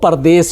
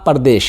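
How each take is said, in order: First: The word ends with an 's' sound. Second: The word ends with an 'sh' sound. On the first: This is the form used in Urdu. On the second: This is the Hindi form built from desh.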